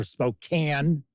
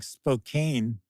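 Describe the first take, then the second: First: Spokane said "spo-KAN", rhyming with can; short-A pronunciation. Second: Spokane said "spo-KAYN", rhyming with cane; long-A pronunciation. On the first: Offering viewers the other option, Spokane pronounced "spo-KAN". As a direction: say Spokane with a short A in the last syllable. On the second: Offering viewers one option, Spokane pronounced "spo-KAYN". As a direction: say Spokane with a long A in the last syllable. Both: Shown as a demonstration. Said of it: "however you want to pronounce it".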